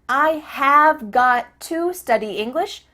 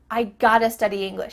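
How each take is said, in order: First: Have got to is said in full. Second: Have got to is reduced to gotta. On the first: "becomes I gotta" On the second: "becomes I gotta"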